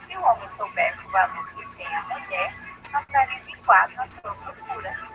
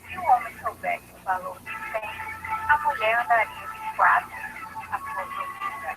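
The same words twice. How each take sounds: First: There is a pause after the word mulher. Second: There is a pause after the word tem.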